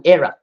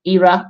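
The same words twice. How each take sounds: First: "era" opening on a short eh, EH-ra; alternative pronunciation. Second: "era" opening on a long ee, EE-ra; pronunciation example. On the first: Teacher explaining both forms are correct, "era" as EH-ra. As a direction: pronounce "era" as EH-rah. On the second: Teacher explaining both forms are correct, "era" as EE-ra. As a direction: pronounce "era" as EE-rah. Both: Shown as a demonstration. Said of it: "They are correct".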